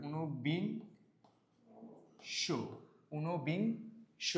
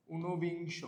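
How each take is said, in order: First: "ঊনবিংশ" broken as uno-bing, pause, sho; pronunciation demo. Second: Said in the usual way. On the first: Shown as a demonstration. Teacher sounding it out for students, "ঊনবিংশ" in slow separate syllables. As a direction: draw out "ঊনবিংশ" slowly, holding back the final sho. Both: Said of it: "আমরা যদি এটার উচ্চারণ লিখি".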